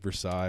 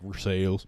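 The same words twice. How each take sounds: First: It is pronounced the original French way. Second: It is pronounced the local Kentucky way. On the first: This is the name as it was originally said. "Kentucky just took Versailles" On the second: This is how locals say the town's name. "then we're like Versailles"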